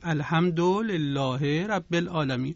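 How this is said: It is recited with a Persian accent. "در لهجه فارسی می گفتید"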